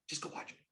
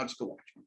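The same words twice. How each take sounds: First: "Just go watch it" breathed out in a whisper. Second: "Just go watch it" said much softer; quieter. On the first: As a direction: lean in and whisper it like a secret tip. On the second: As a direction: ease off as the pitch closes. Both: Shown as a demonstration. Acting out an invite to a friend.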